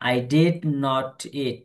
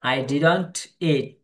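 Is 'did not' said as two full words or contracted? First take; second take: full; contracted. First: Did not is said as two full words. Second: Did not is shortened into one word. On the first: "আমরা তো বললাম I ডিড নট it" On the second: "এই ডিড নট কে সংক্ষেপে পড়া হয় ডিডন্ট।"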